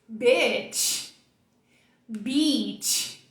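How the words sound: The words are said with a wide smile. "Falei as duas com um sorriso daqui e aqui"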